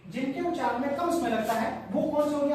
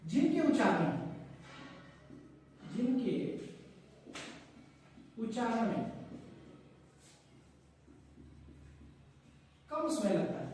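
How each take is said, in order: First: Said in the usual way. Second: Broken into slow chunks with long pauses, fading softer; slow dictation. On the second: Shown as a demonstration. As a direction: dictate it slowly while writing. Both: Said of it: "यहां पर मैं लिख देता हूं".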